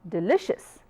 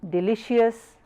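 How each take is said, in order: First: The last syllable has a reduced vowel. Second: The last syllable has a full vowel. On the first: The speaker calls it right. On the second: The speaker calls it wrong.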